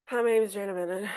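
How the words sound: It is said in a flat, unenthusiastic tone.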